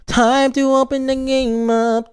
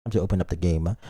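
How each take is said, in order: First: Much higher and louder, sing-song. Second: Said in the usual way. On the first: Shown as a demonstration. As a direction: chirp it out way up high.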